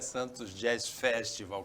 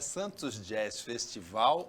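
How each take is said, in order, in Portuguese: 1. A tonicidade está na primeira sílaba. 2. A tonicidade está na última sílaba.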